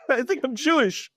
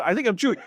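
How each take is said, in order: First: Laughing. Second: Said in the usual way. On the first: Retold or imitated. Repeats it to the rabbi, laughing.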